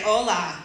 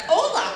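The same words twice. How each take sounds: First: Lower-pitched man's hello; captain's reply. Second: High-pitched hello with a falling swoop; eager greeting. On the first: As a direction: answer low, as the captain. Captain's reply, acted low. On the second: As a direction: greet him high, trying to please. Her anxious greeting to the captain. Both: Retold or imitated.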